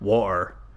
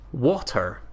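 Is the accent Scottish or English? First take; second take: Scottish; English. First: It is said in a Scottish accent. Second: It is said in an English accent.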